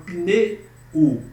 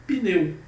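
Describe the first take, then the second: First: "pneu" split as "pinê... u"; separated final vowel. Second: "pneu" with "eu" glided together as one sound; unseparated ending. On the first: Teacher showing what we don't say, "pneu" with separated final u. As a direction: break "pneu" before its last vowel, pausing before the u. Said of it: "Eu não falo pneu". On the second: Teacher giving the correct form, "pneu" with unseparated ending. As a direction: say "pneu" whole, no gap before the u. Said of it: "Nós não separamos". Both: Shown as a demonstration.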